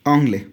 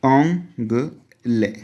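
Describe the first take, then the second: First: ओंगले said briskly, falling; quick repeat of ओंगले at normal pace; ओंगले in French, short and clipped off; French word repeated. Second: ओंगले drawn out very slowly, nasal French vowel first; ओंगले said slowly with a falling end; slow French word. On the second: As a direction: stretch ओंगले for students to copy. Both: Shown as a demonstration. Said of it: "English के लिए क्या था".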